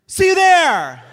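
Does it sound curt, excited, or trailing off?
excited. It sounds bright and excited.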